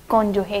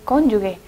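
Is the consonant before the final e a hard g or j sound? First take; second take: j sound; hard g. First: The consonant before the final e is j sound. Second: The consonant before the final e is hard g. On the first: The speaker calls it right. "lo correcto es cónyuge" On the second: The speaker calls it wrong. "muy común emplear mal esta palabra y decir cónyuge"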